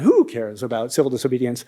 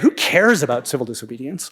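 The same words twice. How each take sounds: First: It sounds dismissive, like nobody cares. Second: It sounds like a genuine, curious question. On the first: The topic does not matter. "that first question" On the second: It asks which people care about the topic. "you might change the tone of that first question"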